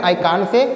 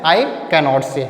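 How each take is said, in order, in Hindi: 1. नकारात्मक शब्द को संक्षिप्त रूप can't में बोला जाता है। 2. नकारात्मक शब्द को पूरा cannot के रूप में बोला जाता है। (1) "चाहे कांट बोलिए" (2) "चाहे कैन नॉट बोलिए"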